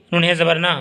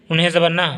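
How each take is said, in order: Both takes have the same delivery.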